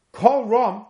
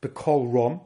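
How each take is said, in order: First: Kol Rom said higher and a bit louder; stressed Kol Rom. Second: Said in the usual way. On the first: Shown as a demonstration.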